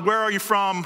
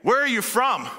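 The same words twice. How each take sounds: First: It sounds like casual small talk. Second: It sounds awed and genuinely wondering.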